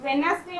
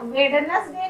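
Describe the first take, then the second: First: "वेडनेसडे" with no first D; "वेडनेसडे" with the first D left silent. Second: "वेडनेसडे" with the first D audible; "वेडनेसडे" mispronounced with first D sounded. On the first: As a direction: say "वेडनेसडे" as wen-nes-day. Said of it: "वेडनेसडे बोलते हैं". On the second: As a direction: say "वेडनेसडे" as wed-nes-day, voicing both Ds. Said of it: "नहीं बोलते हम लोग". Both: Shown as a demonstration.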